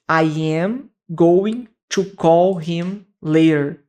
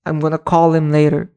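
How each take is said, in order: First: Each word is said fully and separately. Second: The words are reduced and run together. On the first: The speaker calls it wrong. "no inglês a pessoa não vai falar dessa forma" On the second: The speaker calls it right. "Tudo grudado"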